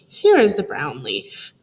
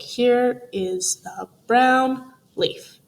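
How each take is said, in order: First: The words flow together with natural expression. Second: Each word is said separately, like a robot. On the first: The speaker calls it right. "reread it again more smoothly" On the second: The speaker calls it wrong. "we sounded really robot-y"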